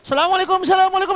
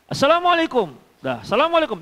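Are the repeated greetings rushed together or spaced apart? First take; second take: rushed; spaced. First: The greetings follow each other with no gap. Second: A clear pause separates the two greetings. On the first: The visitor does not really want to visit. The speaker calls it wrong. "bukan ... Nggak begitulah" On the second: The visitor gives the host time to answer. The speaker calls it right. "ada jedanya kira-kira mengulang itu"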